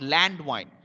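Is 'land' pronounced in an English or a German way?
English. Land is said with an English pronunciation. The speaker calls it wrong. "It's not land wine"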